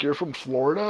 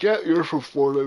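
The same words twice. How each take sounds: First: "Florida" lifted in a questioning rise; doubting question. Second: "Yeah, you're from Florida" as a sure, falling statement; certain statement. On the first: Hearing the speaker talk, "Florida" rises in doubtful question. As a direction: ask "You're from Florida?" as if doubting it. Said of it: "When you talk to me". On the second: Talking to the brother, "you're from Florida" stated with certainty. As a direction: say "you're from Florida" as an obvious fact. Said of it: "When you talk to my brother". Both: Retold or imitated.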